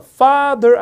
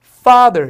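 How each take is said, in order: First: Father in two slow, equally loud syllables; wrong even stress. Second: Father punched loud on "fa", end dropped; stress on first syllable. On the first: Teacher showing the mistake, father slow and evenly stressed. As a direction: weigh both halves of father alike. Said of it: "father 아니라 강세 앞에 있어". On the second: Teacher correcting, father loudly stressed at the front. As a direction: hit the front of father hard. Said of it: "이렇게 강세를 앞에 줘야 돼". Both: Shown as a demonstration.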